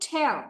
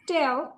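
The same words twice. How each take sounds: First: The first consonant has a strong puff of air. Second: The first consonant has no puff of air. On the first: "এখন সেটাকে বলবো" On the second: "আগে আমরা বলতাম"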